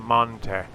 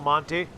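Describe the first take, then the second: First: The name is said in a British accent. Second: The name is said in an American accent.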